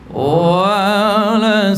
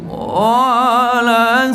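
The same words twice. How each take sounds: First: The vowel of 'wa' is short, one beat. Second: The vowel of 'wa' is stretched to two beats. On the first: The speaker calls it right. "wa tu satu harakat" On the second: The speaker calls it wrong. "wa tu dah jadi dua harakat"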